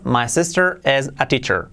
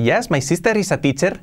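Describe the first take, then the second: First: English-native vowels and r; native English accent. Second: Hammed Spanish learner's English; Spanish-accented English. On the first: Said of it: "Mucho mejor". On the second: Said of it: "no tendrías mucha carisma hablando así". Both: Shown as a demonstration.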